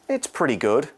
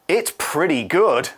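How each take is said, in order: First: It sounds lukewarm and only mildly positive. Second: It sounds enthusiastic and strongly positive. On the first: It is just okay. "means it's okay" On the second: It is great. "means it's great"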